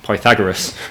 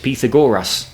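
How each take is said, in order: First: The name is said the English way. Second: The name is said the Greek-style way. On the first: This is how people in England say it. "not Pythagoras, which is what we do" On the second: This is how the ancient Greeks said it. "ancient Greek pronounced it as Pythagoras"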